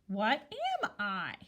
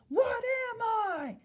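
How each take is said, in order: First: It is asked like a question, rising. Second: It is yelled loudly like an exclamation. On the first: The reader is asking something. The speaker calls it right. "I need to make sure that I'm saying it like I'm asking a question" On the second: The reader is exclaiming at someone. The speaker calls it wrong. "have like an exclamation mark and yell it at someone"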